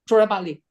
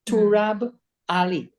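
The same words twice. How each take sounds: First: The name is said very fast, run together. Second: The name is said slowly and clearly.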